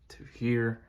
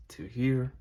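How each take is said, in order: Both takes have the same delivery.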